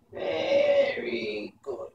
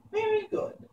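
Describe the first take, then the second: First: High crone voice, slow menacing very good; angry old witch. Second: Put-on angry old witch. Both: A narrator's reading. Mombi threatens the boy who tried to scare her.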